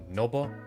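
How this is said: The name is said with a Spanish accent. "more Espanol sounding"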